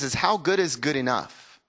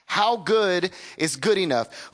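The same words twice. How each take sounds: First: Said in the usual way. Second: How good is good enough, slowed, each word leaned on; slow emphatic repeat. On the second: Shown as a demonstration. Preacher repeats his question slowly for weight.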